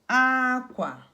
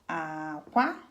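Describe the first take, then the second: First: The first syllable is high, the second low. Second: Both syllables are on a low tone. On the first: "This is cloth. High, low" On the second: "Low, low"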